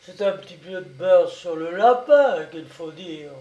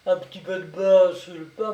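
First: Loud correction with "lapin" swooping up; stress on LAPIN. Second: Loud echo rising on "pain"; mocking echo. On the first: Brigadier correcting the woman's story, stressing "lapin". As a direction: punch "lapin" as the right word. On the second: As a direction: throw "pain" back at her sceptically. Brigadier quotes her claim mockingly. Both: A narrator's reading.

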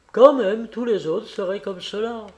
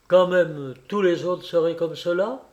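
First: "Quand même" pitched higher and louder, the rest falling; emphatic. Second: Said in the usual way. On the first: A narrator's reading. Kolia insisting to Alexei, with "Quand" stressed high and loud. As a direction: hit "Quand" hard and high, then settle. Repeated line, second take.

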